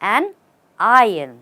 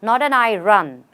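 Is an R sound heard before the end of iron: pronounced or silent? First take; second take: silent; pronounced. First: Iron is said without an R before the end. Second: Iron is said with an R, like I run. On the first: The speaker calls it right. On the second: The speaker calls it wrong.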